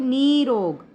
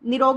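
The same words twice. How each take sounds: First: The first vowel is said long. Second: The first vowel is said short. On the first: The speaker calls it right. "तो बड़े ई की मात्रा इसमें आएगी" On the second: The speaker calls it wrong. "निरोग नहीं बोलते हम"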